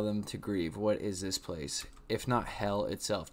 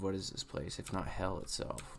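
First: Said in the usual way. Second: Much softer, dropped-down reread; a hushed second reading; reread quietly. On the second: Shown as a demonstration. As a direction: say it again under your breath, pensively. Rereads the same line softer.

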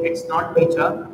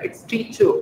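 First: "teacher" ending in a full aa; wrong pronunciation. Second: "teacher" as "TEE-chuh"; light final schwa. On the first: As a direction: say "teacher" as "tee-chaa". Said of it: "इसको आप टीचर नहीं पढ़ेंगे". ("teacher" के अंत में पूरा आ) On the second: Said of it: "हल्का सा अ का साउंड आता है". ("teacher" के अंत में हल्का अ) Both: Shown as a demonstration.

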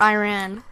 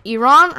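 First: "Iran" said as eye-RAN; "Iran" rhyming with "I ran"; eye-RAN pronunciation. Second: "Iran" said as ee-RON; "Iran" with an open AH second vowel; ee-RON pronunciation. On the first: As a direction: say "Iran" with a long I, then RAN. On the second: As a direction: say "Iran" with EE first, then RON. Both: Shown as a demonstration. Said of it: "how you actually pronounce that".

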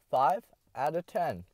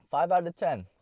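First: Slow, drawn-out score; slow verdict. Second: Punchy, raised verdict; loud verdict. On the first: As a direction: drag the score out slowly. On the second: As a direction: announce the score. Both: Shown as a demonstration.

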